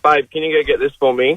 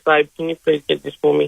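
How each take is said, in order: First: It is said in his normal voice. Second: It is said in a put-on voice.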